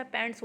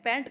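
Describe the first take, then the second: First: पैंट्स ending in a ts sound; correct plural form. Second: पैंट ending on t, no final s; wrong singular form. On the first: Teacher corrects a common mistake, पैंट्स with final s. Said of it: "हमेशा पैंट्स होता है". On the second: Teacher corrects a common mistake, पैंट without final s. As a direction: stop पैंट at the t. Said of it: "वो गलत होता है". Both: Shown as a demonstration.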